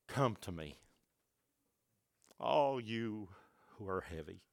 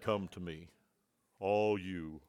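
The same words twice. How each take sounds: First: Much softer and lower, gentle; tender invitation. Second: Much lower and softer, mock formal; formal preacher voice. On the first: Shown as a demonstration. Jesus gently calling the weary, soft and tender. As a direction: breathe it out tenderly. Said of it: "What about Jesus came to them and did this?". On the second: Preacher parodying a formal preacher, low and solemn. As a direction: intone it gravely with highs and lows. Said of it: "maybe we need to be a little formal".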